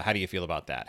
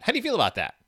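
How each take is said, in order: First: Said in the usual way. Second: High squeaky question. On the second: Shown as a demonstration. Asks in varied voices.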